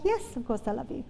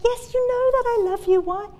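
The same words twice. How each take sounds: First: Quick, much softer answer; soft reply. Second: Irritated, much higher-pitched retort; Peter. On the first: Peter answers Jesus asking if he loves him, soft reply. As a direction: say it softly and quickly, as an easy reassurance. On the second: Peter answers Jesus asking yet again, irritated. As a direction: push the pitch right up, exasperated at being asked. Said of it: "he actually gets really irritated with Jesus". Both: Acted.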